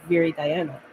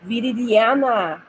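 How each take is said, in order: First: It is said with English sounds, split in two. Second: It is said with Spanish sounds, as one word. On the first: "in English it's just Viri, Diana" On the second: "You gotta say Viridiana"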